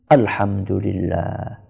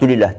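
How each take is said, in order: First: It is said slowly and fully. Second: It is said hurriedly and clipped short.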